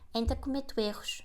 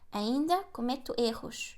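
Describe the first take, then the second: First: The sentence is spoken fast. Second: The sentence is spoken slowly. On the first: "And faster" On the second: "I always like to say like the sentence in Portuguese slowly"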